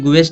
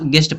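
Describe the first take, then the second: First: A u sound is heard after the g. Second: No u sound is heard after the g. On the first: The speaker calls it wrong. "इसके गुएस्ट नहीं पढ़ेंगे" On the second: The speaker calls it right. "इसको गेस्ट गेस्ट पढ़ेंगे"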